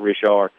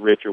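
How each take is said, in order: First: The name is said the southern, Louisiana way. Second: The name is said the northern way. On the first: This is how people here say it. "We pronounce it Richard" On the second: This is how people up north say it. "he's from up north, so they pronounce it Richard"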